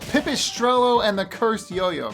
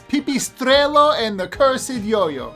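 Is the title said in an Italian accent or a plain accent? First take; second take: plain; Italian. First: It is said in a plain, ordinary accent. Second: It is said in an exaggerated Italian accent.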